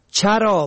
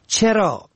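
First: چرا said "chara"; fatha on first. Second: چرا said "chera"; short e after ch in چرا; kasra on first. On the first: Teacher shows چرا for "grazing", pronounced chara. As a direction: open short a after ch in چرا. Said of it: "به فتح اول". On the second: Teacher shows چرا for "why", pronounced chera. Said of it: "به کسر اول". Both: Shown as a demonstration.

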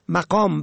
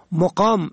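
First: مقام said "maqam"; fatha on first. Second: مقام said "moqam"; rounded o after m in مقام; zamma on first. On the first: Teacher shows مقام for "rank", pronounced maqam. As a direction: open a after m in مقام. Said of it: "به فتح اول". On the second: Teacher shows مقام for "residence", pronounced moqam. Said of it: "به ضم اول". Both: Shown as a demonstration.

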